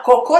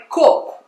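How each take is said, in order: First: "cocô" as co-CÔ; stress on last syllable. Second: "coco" as CÔ-co; stress on first syllable. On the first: Teacher rejecting learner's mistake, last-syllable stress. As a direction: put the accent on the end of "cocô". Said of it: "Se eu colocar na segunda". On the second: Teacher correcting the American, first-syllable stress. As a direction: put the accent on the start of "coco". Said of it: "acento na primeira sílaba". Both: Retold or imitated.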